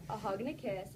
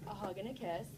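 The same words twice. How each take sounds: The two takes are said the same way.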